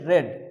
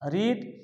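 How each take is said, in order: First: The vowel is short, like 'red'. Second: The vowel is long, like 'reed'. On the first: This is the past participle form of the verb. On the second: This is the base form of the verb.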